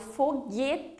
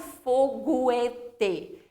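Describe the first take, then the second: First: The U is silent, with no separate sound. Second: The U is pronounced as a separate sound. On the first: The speaker calls it right. "Falo foguete. Então, ele faz um único som" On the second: The speaker calls it wrong. "eu não falo foguete. Eu não pronuncio o U separadamente"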